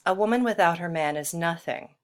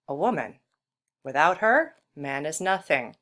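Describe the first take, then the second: First: It is read straight through with no pauses. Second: There are pauses after 'woman' and after 'her'.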